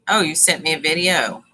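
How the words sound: The voice falls at the end, like a statement. It declares that a video was sent. "what I read was"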